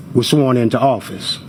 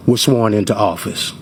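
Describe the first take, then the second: No difference in how they are said.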